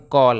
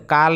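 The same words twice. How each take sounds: First: कॉल with rounded "aw" as in call; correct aw sound. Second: काल with open "aa" like kaal; wrong flat aa. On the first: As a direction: say कॉल with an ऑ vowel. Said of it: "क्या बोलेंगे?". (कॉल को गोल ऑ से बोलें) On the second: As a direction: say काल with a plain आ. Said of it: "काल नहीं बोलते हैं". (काल को खुले आ से बोलें) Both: Shown as a demonstration.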